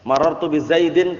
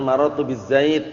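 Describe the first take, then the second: First: The final word ends with an -in sound. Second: The final word ends abruptly on the d. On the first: The speech carries on past this word. The speaker calls it wrong. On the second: The speaker stops at this word. The speaker calls it right. "yang benar"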